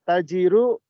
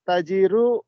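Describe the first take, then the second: No difference in how they are said.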